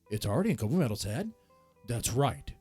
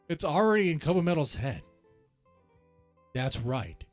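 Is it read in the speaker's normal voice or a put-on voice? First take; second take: put-on voice; normal voice. First: It is read in a put-on character voice. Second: It is read in the speaker's normal voice.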